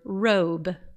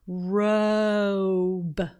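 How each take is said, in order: First: The word is said at ordinary speed. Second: The word is said with sounds stretched. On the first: "we're going to just use the shorter word" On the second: "now we're going to stretch out the sounds"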